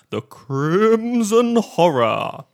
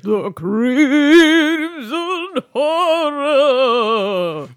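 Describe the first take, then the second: First: Wavering horror-host voice; wobbly voice. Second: Slow, high, wobbling horror title; wobbly voice. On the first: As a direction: let the voice wobble spookily on the title. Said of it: "Did you like my wobbly voice?". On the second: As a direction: drag the title out in a quavering spooky voice. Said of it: "Yes, it was very good". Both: Pretend.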